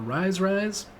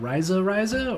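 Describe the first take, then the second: First: Each word is said with one syllable. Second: Each word is said with two syllables.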